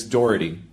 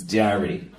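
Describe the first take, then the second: First: Said in the usual way. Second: "Doherty" squashed to sound like "Dearie"; Boston-mangled "Doherty"; mispronounced name. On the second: Retold or imitated. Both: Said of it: "She mispronounced her own name".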